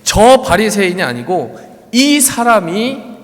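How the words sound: The words 저 and 이 are read with emphasis.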